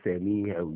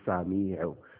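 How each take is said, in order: First: The first vowel is an 'e' sound. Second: The first vowel is an open 'a' sound. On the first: The speaker calls it wrong. "you don't say semihel" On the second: The speaker calls it right. "you say samihel"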